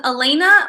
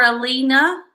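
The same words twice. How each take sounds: First: Elena said uh-LAY-nuh, with a long A; name pronunciation check. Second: Elena said uh-LEE-nuh, with a long E; name pronunciation check. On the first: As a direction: stress the middle of Elena, rhyming it with "rain-uh". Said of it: "Tell me how to say it properly". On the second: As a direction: stress the middle of Elena, like "lean-uh". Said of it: "Are we saying her name right". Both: Shown as a demonstration.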